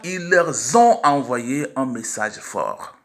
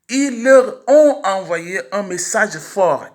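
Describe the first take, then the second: First: Leur and ont are joined by a linking z. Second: Leur and ont are said without a linking z. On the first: The speaker calls it wrong. "et non pas" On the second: The speaker calls it right. "on dira"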